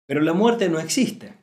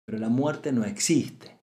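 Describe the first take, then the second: First: Raised and louder, declared firmly; emphatic statement. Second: Slower, settling the words gently; slow reflective repeat. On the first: Teacher to listeners, stating firmly that death doesn't exist. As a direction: proclaim it like a core truth. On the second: Teacher to listeners, repeating slowly so it sinks in. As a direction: let it sink in, slowly. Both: Shown as a demonstration. Repeats the key phrase twice.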